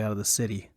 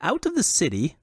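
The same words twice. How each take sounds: First: Said in the usual way. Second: High-pitched, foppish echo question; high, incredulous fop. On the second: A narrator's reading. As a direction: repeat it as a startled dandy's query. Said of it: "Luque asked".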